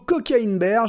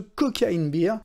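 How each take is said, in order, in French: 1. Le dernier mot se prononce avec la voyelle 'air'. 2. Le dernier mot se prononce avec la voyelle 'ee'. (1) "ou plutôt" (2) "je vais arrêter de faire mon français et de prononcer ça comme si on parlait d'une panne de blonde"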